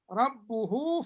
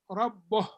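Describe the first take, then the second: First: The word ends on a long u vowel. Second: The word ends on a consonant, no vowel. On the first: The reciter carries on into the next word. "If we continue" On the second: The reciter pauses after this word. "If you stop here"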